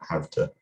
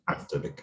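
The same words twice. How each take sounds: First: The v stays voiced before to. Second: The v is voiceless, heard as f. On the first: "rather than" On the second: "assimilated to the, the voicelessness of the ter"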